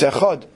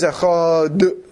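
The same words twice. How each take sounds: First: The word ends cleanly on the final d. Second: A short vowel sound follows the final d. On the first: The speaker calls it right. "It's achod, right?" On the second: The speaker calls it wrong. "it's wrong. You're making a shva on the dalid"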